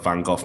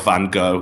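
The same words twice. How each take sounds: First: Van Gogh is said the British way. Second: Van Gogh is said the American way.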